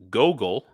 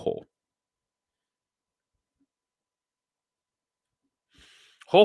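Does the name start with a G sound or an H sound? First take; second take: G; H. First: The name starts with a hard G sound. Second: The name starts with an H sound.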